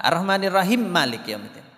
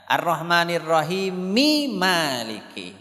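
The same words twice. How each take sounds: First: "Ar-Rahmanirrahim" closed on m before "Malik"; wrongly joined reading. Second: Slow "Ar-Rahmanirrahimi Maliki" with final i sounded; joined recitation. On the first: Teacher showing a faulty join, "rahim Malik" with no linking vowel. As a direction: leave off the final vowel of "Ar-Rahmanirrahim". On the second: Teacher showing the correct join, slow "rahimi Maliki" with end vowels. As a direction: draw out "rahimi Maliki" as one linked chant. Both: Shown as a demonstration.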